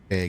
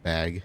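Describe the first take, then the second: First: The word is said in the speaker's regional accent. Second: The word is said in the standard accent. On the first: This is how the speaker's home region says it. "that's my Uber accent" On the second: This is how most other people say it. "instead of"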